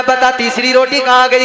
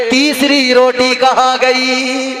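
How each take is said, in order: First: Said in the usual way. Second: Each word drawn out; stretched-out demanding question; slow questioning. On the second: Acted. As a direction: slowly press for the answer. Prophet presses the thief.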